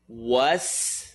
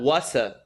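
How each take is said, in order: First: The word ends cleanly on the s sound. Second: An extra vowel follows the s sound. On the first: The speaker calls it right. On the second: The speaker calls it wrong. "not wasa"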